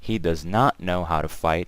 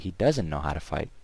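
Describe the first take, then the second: First: The words does and not are said separately. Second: Does and not merge into one contracted word. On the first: "instead of saying" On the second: "I could say"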